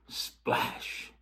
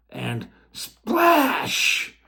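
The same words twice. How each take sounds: First: Softly whispered splash. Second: A sudden high, loud cry of splash; big splash cry. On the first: The narrator whispers the first splash before the big one. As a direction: breathe the word as a hush before the crash. Stone drops into boiling pot. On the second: The narrator cries out the stone's huge splash into the pot. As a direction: burst out with the splash. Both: Acted.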